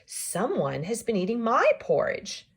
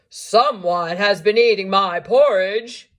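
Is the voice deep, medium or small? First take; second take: medium; deep. First: It is said in a middle-sized voice. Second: It is said in a big, deep voice.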